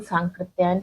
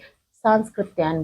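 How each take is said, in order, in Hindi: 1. 'k' से पहले कोई 's' ध्वनि नहीं आती। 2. 'k' से पहले एक अतिरिक्त 's' ध्वनि आती है। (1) "राहुल सांकृत्यायन है" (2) "बहुत अच्छे अच्छे लोग भी सांस्कृत्यायन बोलते हैं। ठीक। तो गलत है"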